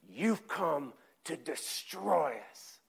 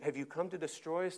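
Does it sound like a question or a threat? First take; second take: threat; question. First: It sounds like a hostile declaration. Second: It sounds like an asking question.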